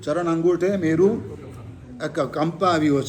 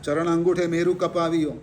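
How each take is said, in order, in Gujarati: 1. છેલ્લા શબ્દમાં p પહેલાં અનુનાસિક છે. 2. છેલ્લા શબ્દમાં p પહેલાં અનુનાસિક નથી.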